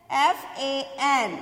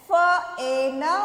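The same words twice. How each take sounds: First: एफ ए एन slowly by letter names; spelling aloud. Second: फ ए न as separate sounds; letter sounds. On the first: Teacher spelling for children, एफ ए एन letter by letter. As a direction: spell out एफ ए एन with space between letters. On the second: Teacher drilling children, फ ए न said sound by sound. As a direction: sound out फ ए न, not the letter names. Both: Shown as a demonstration. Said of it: "ये क्या है".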